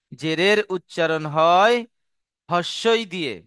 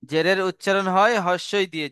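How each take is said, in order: First: Slow, with হয় left hanging before the answer; slow dictation. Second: Higher, brisker, unbroken phrase; run-through in one go. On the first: Teacher dictating the zer rule to students, slow and broken in two. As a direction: draw out হয়, pause, then হস্যই দিয়ে. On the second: Teacher restating the zer rule before examples, in one unbroken run. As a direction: say it straight through without pausing at হয়. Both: Shown as a demonstration.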